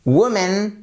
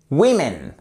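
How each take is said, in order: First: "Woman" as WU-mun, pitched higher, rising; "Woman" stressed on WU, open rising end; corrected pronunciation. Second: "women" as WIM-in, falling to a close; "women", clear WIM and final fall; corrected plural. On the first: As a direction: model the correct "Woman", left hanging upward. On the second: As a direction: model the correct "women" with a short i. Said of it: "On passe d'un son". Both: Shown as a demonstration.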